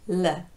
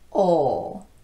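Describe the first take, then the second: First: The L sound is light, made further forward. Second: The L sound is dark, made further back. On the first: "the L in initial word position is a light L" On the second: "final L is a dark L"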